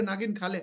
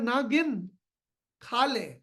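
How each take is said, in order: First: नागिन खा ले with नागिन as one word; run together, no pause. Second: नागिन split as ना गिन, pause, खा ले. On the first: Husband to wife while eating, misheard as run-together words. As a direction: say नागिन खा ले straight through, no break. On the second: Husband telling wife not to count, split with pauses. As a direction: break नागिन into two words, then pause before खा ले. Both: Shown as a demonstration. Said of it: "कहने के तरीके में फर्क है".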